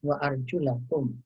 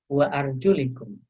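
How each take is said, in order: First: The vowel after the L is 'a'. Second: The vowel after the L is 'i'. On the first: The word is read in the accusative case. "dengan menfathahkan lamnya" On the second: The word is read in the genitive case. "mengkasrohkan lamnya"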